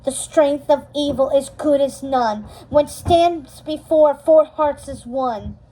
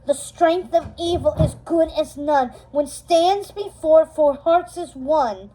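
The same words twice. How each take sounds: First: Confident incantation. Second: Louder incantation. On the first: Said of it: "She incanted confidently". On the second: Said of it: "Mal said it again louder". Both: Acted.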